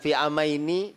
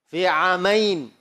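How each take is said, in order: First: The final vowel is drawn out while hesitating. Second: The word ends cut short with no added vowel. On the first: The reciter is stalling while recalling the next words. The speaker calls it wrong. "Jangan fi amaini, kemudian sambil kira-kira yang berikutnya nih apa?" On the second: The reciter stops cleanly at the pause. The speaker calls it right. "Kalau mau berhenti"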